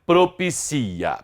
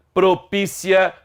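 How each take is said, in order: First: Propicia with a drawn-out CI, falling; stress on CI. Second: Propícia with a long, higher PÍ; stress on PÍ. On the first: Teacher contrasting word stresses, propicia stressed on CI. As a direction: lean on CI in propicia and draw it out. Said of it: "a sílaba tônica é o si". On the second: Teacher contrasting word stresses, propícia stressed on PÍ. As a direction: stretch the second syllable of propícia, PÍ. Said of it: "a sílaba tônica é anterior". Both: Shown as a demonstration.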